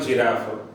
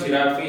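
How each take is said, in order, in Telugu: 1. ఈ పదం f హల్లుతో ముగుస్తుంది. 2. ఈ పదం అదనపు అచ్చు ధ్వనితో ముగుస్తుంది.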